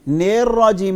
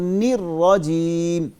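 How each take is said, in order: First: The vowel after n sounds like 'e'. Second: The vowel after n sounds like 'ee'. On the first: The speaker calls it wrong. "नेर राजीम नहीं बोलना" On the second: The speaker calls it right. "इसको निर राजीम"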